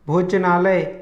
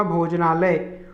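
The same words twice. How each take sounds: First: भोजनालय with a cut-short j, "bhoj-nalay" near "bhoch"; wrong भोजनालय. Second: भोजनालय with a full voiced j; correct भोजनालय. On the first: Teacher showing half-letter error, भोजनालय near "bhochnalay". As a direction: harden the j of भोजनालय towards ch. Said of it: "आधा ज ना होकर". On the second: Teacher giving correct form, भोजनालय with full j. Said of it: "शुद्ध रूप होगा". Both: Shown as a demonstration.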